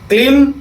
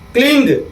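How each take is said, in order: First: The word ends in a nasal m sound. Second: The word ends in a nasal g sound. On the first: "कहीं क्लीं सुनता होगा" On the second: "कहीं कहीं क्लिंग सुनता होगा"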